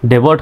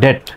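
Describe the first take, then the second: First: The b sound is pronounced in the word. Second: The b sound is silent in the word. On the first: The speaker calls it wrong. "ডেভোট হবে না" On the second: The speaker calls it right. "এখানে বির উচ্চারণ silent"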